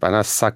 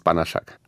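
First: The middle consonant is an s sound. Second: The middle consonant is a sh sound. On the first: This is how the letters would read in Hungarian. The speaker calls it wrong. "im Ungarischen genau anders wäre. Da wird es dann irgendwie Banaschak" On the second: This is the Polish way to say the name. The speaker calls it right. "richtig in der polnischen Aussprache ist es Banaschak"

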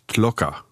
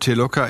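First: No vowel is heard between the T and L. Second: A vowel is heard between the T and L. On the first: This is the original Polish form of the name. "das E ist weg und der Name heißt Telocker" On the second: This is the Germanized form of the name. "Ihr Name Telocker ist eine Veränderung"

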